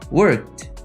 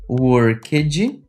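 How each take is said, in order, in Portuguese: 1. A terminação é reduzida a um som de T. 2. A terminação é pronunciada como uma sílaba extra. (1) "eu falei worked. Eu praticamente reduzi o ed para som de T" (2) "eu não falei worked"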